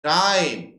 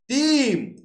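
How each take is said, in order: First: The vowel glides as an eye diphthong. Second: The vowel is a single long ee sound. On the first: This is the present-day form of the word. "এখন সেটা টাইম" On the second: This is the older form of the word. "Middle ইংলিশে টিম"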